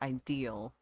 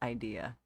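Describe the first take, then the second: First: The word ends with an added L sound. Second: The word ends on a vowel without L. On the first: This is how it is said in the speaker's home dialect. "Where I grew up, it's pronounced ideal" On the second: This is the standard form of the word. "even though it's idea"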